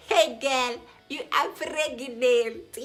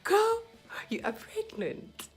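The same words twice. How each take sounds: First: Loud, high, slow joyful news; exuberant announcement. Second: Joyful repeat. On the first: Doctor telling the patient she is pregnant, loud and high. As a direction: announce it like a celebration. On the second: Doctor repeats. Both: Retold or imitated.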